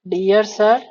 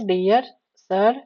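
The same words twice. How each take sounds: First: Said in the usual way. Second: dear सर said slowly and clearly; teacher repeats dear सर slowly for note takers, slow and clear; slow dictation. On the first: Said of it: "उसके बाद". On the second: Shown as a demonstration. Spelling out dear सर at dictation pace. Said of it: "ठीक है, dear सर".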